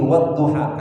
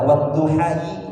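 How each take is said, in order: First: The word ends with a plain 'a' sound. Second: The word ends with an 'ai' sound. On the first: The speaker calls it right. "tapi wadduha" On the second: The speaker calls it wrong. "nggak dibaca wadduhai"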